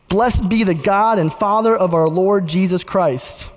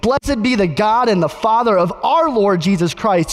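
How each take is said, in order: First: It is read in a plain, flat way. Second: It is read with excited exclamatory energy.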